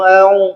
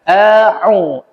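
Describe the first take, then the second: First: The ain throat sound is skipped and slurred. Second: The ain throat sound is clearly articulated. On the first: The speaker calls it wrong. "Ada orang yang melalui melalui dalam artian aung, ... itu salah" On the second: The speaker calls it right. "A pangkal, pangkal tenggorokan, au di tengah"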